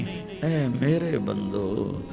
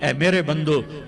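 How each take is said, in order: First: It is said in a warm, tender tone. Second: It is said in a flat, plain tone. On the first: The speaker calls it right. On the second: The speaker calls it wrong.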